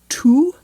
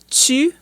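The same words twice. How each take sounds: First: The T is a plain stop before the vowel. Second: The T is affricated, with a hiss before the vowel. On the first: "instead of saying tu" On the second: "there's an affrication"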